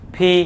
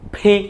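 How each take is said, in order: No difference in how they are said.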